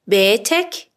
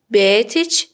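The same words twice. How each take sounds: First: بیتک with final -ek; masculine ending. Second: بیتچ with final -ech; feminine ending. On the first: Teacher models a man's house, بیتک with final k. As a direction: end بیتک rising on a clear k. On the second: Teacher models a woman's house, بیتچ with final ch. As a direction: end بیتچ rising on a ch. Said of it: "کافیه کلمه رو به اضافهٔ چه کنید". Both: Shown as a demonstration.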